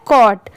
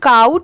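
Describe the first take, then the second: First: The vowel is a plain 'aw' like caw. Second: The vowel glides like the 'ow' in cow. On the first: The speaker calls it right. "But इसकी pronunciation क्या है कॉट" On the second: The speaker calls it wrong. "इसे काउट नहीं पढ़ेंगे, बहुत सारे लोग इसे गलत भी प्रोनाउंस करते हैं"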